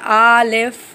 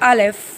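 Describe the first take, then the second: First: The first vowel is drawn out and stressed. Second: The first vowel is short and light. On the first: The speaker calls it wrong. "ज़्यादा खींच के नहीं पढ़ेंगे, बहुत ज़्यादा ज़ोर नहीं देना है" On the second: The speaker calls it right. "हमें पढ़ना है अलिफ"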